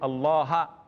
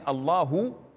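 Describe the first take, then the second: First: The word ends in an a vowel. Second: The word ends in an u vowel. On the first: "he says Allaha" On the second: "instead of saying Allahu"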